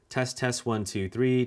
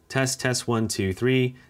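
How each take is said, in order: First: The voice is recorded at a lower level. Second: The voice is recorded at a higher level. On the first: "the audio record level is set to one" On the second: "Let's increase it to five"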